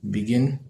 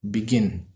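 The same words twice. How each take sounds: The two takes are said the same way.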